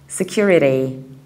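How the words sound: It has an American accent with a flapped T.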